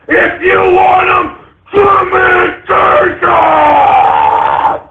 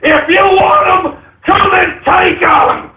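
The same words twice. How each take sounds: First: Screaming near tears. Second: Shouted dare at the gun grabbers; defiant shout. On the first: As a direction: scream it till the voice cracks. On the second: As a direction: dare them to come and get it. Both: Acted. Defiant rant peak.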